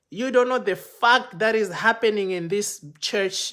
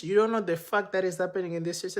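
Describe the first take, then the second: First: Loud, raised "you don't know the fact", warning; threatening. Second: "You don't know the fact" repeated fast at normal level; rushed repeat. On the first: Protocol guys threatening the speaker, loud raised warning. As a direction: press the warning hard. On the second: Protocol guys repeating their warning, fast and clipped. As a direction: rattle the warning off quickly. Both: Retold or imitated.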